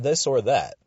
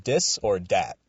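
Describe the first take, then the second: First: Said in the usual way. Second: "Dis or Dat" with D sounds for th. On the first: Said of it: "Not this or that". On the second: Shown as a demonstration. Host imitating the show title, hard D for th. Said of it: "incapable of pronouncing the T H sound".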